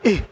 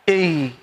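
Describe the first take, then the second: First: The breath is released freely on the sound. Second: The breath is held back on the sound. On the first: The speaker calls it wrong. "itu langsung habis" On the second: The speaker calls it right. "maka ditahan"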